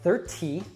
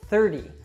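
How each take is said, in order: First: The middle consonant is a clear, crisp T. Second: The middle consonant sounds like a soft D. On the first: The speaker calls it wrong. "So it's not thirty" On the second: The speaker calls it right. "we actually change that to an American T, which sounds like a soft D"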